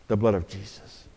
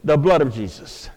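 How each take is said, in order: First: Much softer, lower reverent repeat; softer echo. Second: Said in the usual way. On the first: Acted. Pastor softly repeating the answer for the congregation. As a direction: let the answer sink in quietly.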